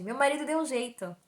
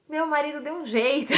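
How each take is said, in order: First: Said in the usual way. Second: Higher, firmer reply; insistent repeated answer. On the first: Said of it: "Aí eu respondi". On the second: Retold or imitated. Patient repeating her answer to the doctor, insistent. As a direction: restate it with more push. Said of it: "Eu respondi".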